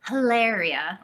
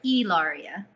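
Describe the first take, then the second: First: The name begins with an audible H sound. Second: The name begins directly with the vowel sound. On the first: The speaker calls it wrong. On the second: The speaker calls it right. "The H is silent"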